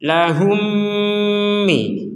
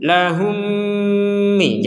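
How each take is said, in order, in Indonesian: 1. Bunyi m digabung dan ditahan dengan dengung sengau. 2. Bunyi m digabung dan ditahan dengan dengung sengau.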